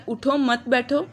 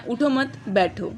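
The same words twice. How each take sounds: First: "اٹھو", break, then "مت بیٹھو" together; group "مت بیٹھو" after a stop on "اٹھو"; pause after اٹھو. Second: "اٹھو مت" together, break, then "بیٹھو"; pause after مت. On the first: Teacher showing how stops change meaning, pausing after "اٹھو". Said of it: "کچھ سمجھ نہیں آ رہا". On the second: Teacher showing the other meaning, pausing before "بیٹھو". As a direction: stop after "مت", then give "بیٹھو" alone. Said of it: "یا اٹھو مت بیٹھو". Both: Shown as a demonstration.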